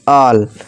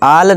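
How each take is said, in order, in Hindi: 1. यह स्वर गोलाकार 'aw' है। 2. यह स्वर खुला और अगोलाकार 'aa' है। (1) "ऑल ऑल ऑल, यानी कि सब" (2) "आल नहीं"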